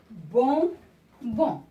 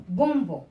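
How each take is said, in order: First: Bonbon split slowly into two loud syllables. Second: Said in the usual way. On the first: Shown as a demonstration. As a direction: say "bonbon" slowly, pausing between bon and bon. (« bonbon » lentement, syllabe par syllabe) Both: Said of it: "c'est une syllabe qui se répète deux fois".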